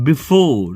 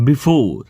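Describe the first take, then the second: No difference in how they are said.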